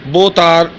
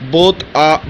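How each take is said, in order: Both takes have the same delivery.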